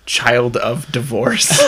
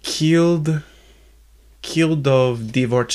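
First: The first word sounds like 'child'. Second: The first word sounds like 'killed'. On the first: It is read the way it is spelled. "But it's spelled Child of Divorce" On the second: It makes the name sound fancy. "that's a very cool pronunciation for something that's very obviously not that"

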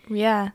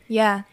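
No difference in how they are said.

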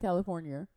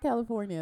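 First: It ends in an 'er' sound, Boston-style. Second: It ends in a plain 'a' sound.

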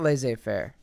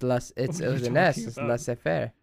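First: Laissez is said with a z sound. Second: Laissez is said without a z sound. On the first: The speaker calls it wrong. "It's not laissez-faire. It's not a Z" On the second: The speaker calls it right. "It's laissez-faire"

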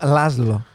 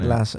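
First: The name has an l sound before the o. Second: The name has no l sound before the o. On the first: The speaker calls it right. "Λάζλο, όχι Λάζο" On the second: The speaker calls it wrong. "όχι Λάζο"

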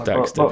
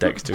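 First: The first vowel sounds like 'a' in 'bad'. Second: The first vowel sounds like 'e' in 'bed'. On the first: The speaker calls it right. "It's Daxter" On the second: The speaker calls it wrong. "It's not Dexter"

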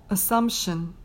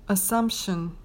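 The two takes are said the same way.

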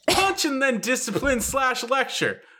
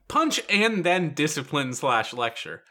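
First: It is read in a gruff put-on cartoon voice. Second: It is read in the speaker's ordinary voice.

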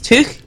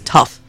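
First: The word has a broad northern Scots pronunciation. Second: The word has an anglicized pronunciation. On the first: This is how people from the north say it. "if you're from up north, like Aberdeen, it's Tuch" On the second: This is how people in Dundee say it. "In Dundee, it's Tough. ... They anglicized it"

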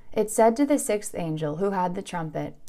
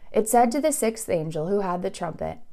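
The two takes are said the same way.

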